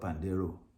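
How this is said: A Western pronunciation ending in an 'oh' vowel. "The Western will call it Pandero"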